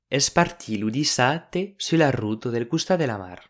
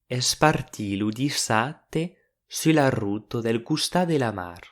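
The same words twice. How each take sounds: First: It is said at a faster pace. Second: It is said at a slower pace.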